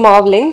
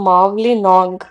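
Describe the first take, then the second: First: The name is shortened, ending in 'ling'. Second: The name is said in full, ending in 'nong'. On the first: The speaker calls it wrong. "ನಾನು I think wrong ಆಗಿ pronounce ಮಾಡಿದೆ" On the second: The speaker calls it right. "ಇವಾಗ ನಾನು correct ಆಗಿ pronounce ಮಾಡಿದೆ"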